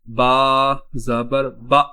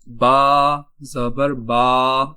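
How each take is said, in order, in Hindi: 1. अंतिम स्वर को झटके के साथ काट दिया गया है। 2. अंतिम स्वर को लंबा खींचा गया है। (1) "हम इसको झटका दे दें" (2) "ये इस तरह पढ़ना सही नहीं होगा"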